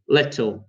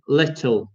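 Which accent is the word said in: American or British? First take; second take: British; British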